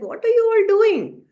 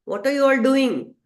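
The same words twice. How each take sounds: First: High, loud astonished question; amazed cry. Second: A slightly raised, louder asking; puzzled question. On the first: Naradji marvels at the tiny birds, high and loud. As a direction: cry out in wonder at the sight. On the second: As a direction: call out to the busy birds, puzzled. Relatives question the birds. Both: Acted.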